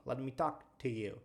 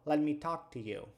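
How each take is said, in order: First: The word 'to' shrinks to a quick t sound. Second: The same.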